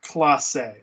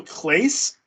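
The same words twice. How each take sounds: First: "Clase" in two syllables, "CLAH-say"; Spanish-style Clase. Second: "Clase" as one syllable, rhymes with "face"; English-style Clase. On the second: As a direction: say "Clase" like "Clace", anglicized. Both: Shown as a demonstration. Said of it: "is it Emmanuel Clase or Clase".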